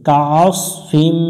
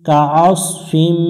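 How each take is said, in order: Both takes have the same delivery.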